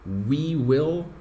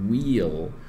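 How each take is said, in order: First: Both words are said fully and separately. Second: The two words merge into one short syllable.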